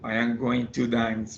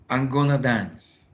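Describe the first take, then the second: First: Every word of 'going to' is fully pronounced. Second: 'Going to' is squeezed into one short 'gonna'. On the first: "which is going to" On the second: "we can reduce it. Yeah, gonna"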